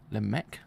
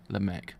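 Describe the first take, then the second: First: "Lemek" with a rising tune; rising tentative "Lemek"; questioning "Lemek". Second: "Lemek" with a final fall, lower; falling decided "Lemek"; settled "Lemek". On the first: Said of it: "trying out the name". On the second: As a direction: state "Lemek" with certainty. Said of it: "settling on the name". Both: Shown as a demonstration.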